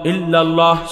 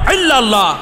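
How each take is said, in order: First: It begins with a light glottal stop. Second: It begins with a tight throaty pharyngeal sound. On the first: The speaker calls it right. "স্বাভাবিক হামজা দেয়া" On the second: The speaker calls it wrong. "হামজার পরিবর্তে আইন দেয়া"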